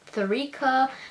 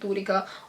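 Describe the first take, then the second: First: The name is said with an English accent. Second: The name is said with a Tamil accent. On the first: "in the English accent it's Tharika" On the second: "in Tamil accent it's Dorika"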